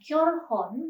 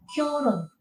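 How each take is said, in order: First: An h sound is heard in the middle. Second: No h sound is heard in the middle. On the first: The speaker calls it wrong. "bukan kyorhon" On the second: The speaker calls it right. "melainkan kyorun"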